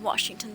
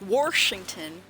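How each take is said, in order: First: It is said without an added r sound. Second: It is said Michigan-style with an added r: Warshington.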